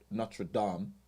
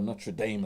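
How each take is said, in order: First: Notre Dame is said with a French-like pronunciation. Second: Notre Dame is said with an anglicized local pronunciation.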